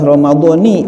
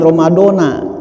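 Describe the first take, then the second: First: The word ends with an 'ee' vowel. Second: The word ends with an 'ah' vowel. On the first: The speaker calls it right. "yang benar adalah ramadhani" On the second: The speaker calls it wrong. "bukan ramadona"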